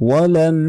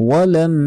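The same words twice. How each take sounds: Both takes have the same delivery.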